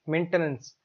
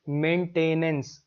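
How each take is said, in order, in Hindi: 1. बीच वाला अक्षर 'ten' जैसा सुनाई देता है। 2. बीच वाला अक्षर 'tain' जैसा सुनाई देता है। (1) "इसकी सही प्रोनाउंसिएशन होती है मेंटेनेंस" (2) "हम इसको बोलते हैं मेंटेनेंस। ऐसा बोलोगे तो फिर टी ए आई एन लिखने की कोशिश करोगे"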